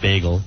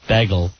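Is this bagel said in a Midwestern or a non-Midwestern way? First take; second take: non-Midwestern; Midwestern. First: It is said with a non-Midwestern pronunciation. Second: It is said with a Midwestern pronunciation. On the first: This is how the speakers themselves say it. The speaker calls it right. "instead of bagel" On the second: This is how people out in the Midwest say it. The speaker calls it wrong. "they also say uh, bagel"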